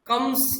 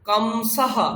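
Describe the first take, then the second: First: The word ends on a bare consonant. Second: The word ends on a full vowel and breath. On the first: The speaker calls it wrong. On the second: The speaker calls it right.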